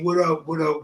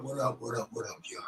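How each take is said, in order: First: Said in the usual way. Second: Trailing off into a whisper; fading to whisper. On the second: Real, not acted. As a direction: let it fade to a whisper. Repeated greeting fades out.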